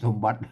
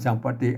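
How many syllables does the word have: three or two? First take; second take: two; three. First: It is said with two syllables. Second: It is said with three syllables. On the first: This is the modern Thai reading. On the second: This is the Pali reading.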